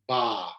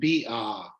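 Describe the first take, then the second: First: The consonant and vowel blend into one syllable. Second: The letter name and vowel are said apart. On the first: The speaker calls it right. "putting them together and making them ba" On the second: The speaker calls it wrong. "you end up saying B ah or something like that"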